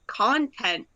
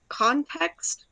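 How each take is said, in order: First: "Content." said with n, no x, falling firmly; settling on "Content." as the right word; corrected pronunciation. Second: "context?" with a t and a questioning rise; trying "context?" as a guess, ending up; unsure pronunciation. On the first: Friend correcting herself, firm "Content.". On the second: Friend unsure of the word, rising "context?". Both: Real, not acted. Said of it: "Is it content or cont".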